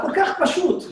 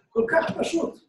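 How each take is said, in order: First: Said in the usual way. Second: Whispered repeat. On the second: Shown as a demonstration. Rabbi whispering to his congregation that Torah is כל כך פשוט.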